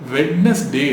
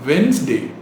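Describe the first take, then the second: First: The first 'd' is pronounced. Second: The first 'd' is silent. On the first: The speaker calls it wrong. "வெட்னஸ்டே அப்படின்னு சொல்லிட்டு இருக்கோம், which is wrong" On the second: The speaker calls it right. "அதில் இருக்கிற first டி வந்து silent"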